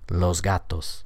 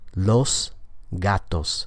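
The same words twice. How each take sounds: First: The s before gatos is a voiced z. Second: The s before gatos is a voiceless s. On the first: This is ordinary conversational speech. The speaker calls it right. "the assimilated pronunciation... the S sound is going to change to a Z" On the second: This is careful speech. The speaker calls it wrong. "without assimilation... So the S there is voiceless"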